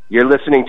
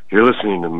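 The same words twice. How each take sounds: First: It is said in the speaker's normal voice. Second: It is said in a put-on character voice.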